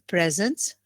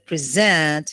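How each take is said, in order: First: The stress is on the first syllable. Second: The stress is on the second syllable. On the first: It is a noun. "which is a noun, present noun. The uh, stress is on the first syllable" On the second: It is a verb. "here it's a verb"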